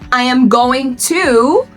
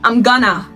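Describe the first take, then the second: First: Each word is said fully and separately. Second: The words are contracted and blended together. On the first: "instead of saying" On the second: "native speakers say"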